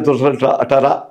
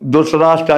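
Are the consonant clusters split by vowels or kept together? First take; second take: split; together. First: The consonant clusters are broken up by added vowels. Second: The consonant clusters are said together without extra vowels. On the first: "అన్నట్టు ఉంటుందన్నమాట. అంటే విడదీసి ఉంటాయి" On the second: "మనలోలాగా వక్త్ర, ధృతరాష్ట్ర అని ఉందనుకోండి"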